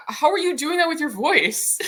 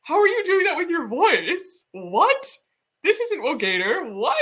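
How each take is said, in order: First: Higher, baffled mock question; imitating confused friend. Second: Much higher, baffled mock questions; imitating incredulous friend. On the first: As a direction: ask it like the puzzled friend, pitched up. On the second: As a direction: play the friend who can't believe the voice. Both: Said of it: "He was like".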